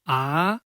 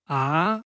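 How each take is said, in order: First: The pitch rises from middle to high. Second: The same.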